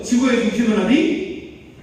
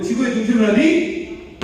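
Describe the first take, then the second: First: Chanted, loud, raised call-out, slowed, rising on 어디; group chant. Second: Chanted, louder, higher call-out, sharp rise on 어디; chanted, call it out high and loud for the room; articulated chant. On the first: Lecturer getting everyone to join in, chanting. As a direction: lead the room in a slow loud chant. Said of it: "자, 다 같이 한번". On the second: Lecturer repeating the chant with articulation, chanting. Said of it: "자, 발음 걸고". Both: Shown as a demonstration.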